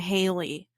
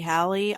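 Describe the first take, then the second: First: The first vowel is long, as in daily. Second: The first vowel is short, as in valley.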